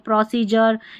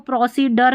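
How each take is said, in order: First: The middle consonant is a j sound. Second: The middle consonant is a d sound. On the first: The speaker calls it right. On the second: The speaker calls it wrong.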